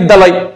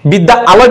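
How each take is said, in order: First: The two words are merged into one. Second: The two words are said separately. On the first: "বিদ্যালয় বলছেন" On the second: "বিদ্যা আলয় না বলে"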